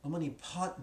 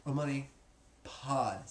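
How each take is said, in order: First: "pot" ending in a hard T instead of D; D pronounced as T. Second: "Pod" ending in a voiced D, not T; D pronounced as D. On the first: Teacher showing students a common mistake, "pot" with T for D. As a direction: say "pot" with a crisp final T. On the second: Teacher modelling the mantra for students, "Pod" with a true D. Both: Shown as a demonstration. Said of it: "pronounce that D like a T".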